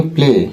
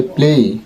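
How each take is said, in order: First: "প্লে" ending on a pure e; familiar "প্লে" pronunciation. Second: "প্লেই" with e gliding into i; correct "প্লেই". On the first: Teacher showing the known form, "প্লে" with a simple e. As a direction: say "প্লে" with no glide at the end. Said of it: "আমরা এটাকে জানি প্লে". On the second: Teacher correcting viewers, "প্লেই" as plei. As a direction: finish "প্লেই" on a clear ei diphthong. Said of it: "কিন্তু এটা হবে প্লেই". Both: Shown as a demonstration.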